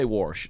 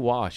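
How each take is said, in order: First: The word has an R sound before the sh. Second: The word has no R sound before the sh. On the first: "you say warsh" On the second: "there's no R"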